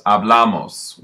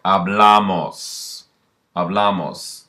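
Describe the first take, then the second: First: Said in the usual way. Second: Hablamos, slowly and clearly stretched out; slow model word. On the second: Shown as a demonstration. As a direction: spell out Hablamos slowly so the class can copy it. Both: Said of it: "you add amos".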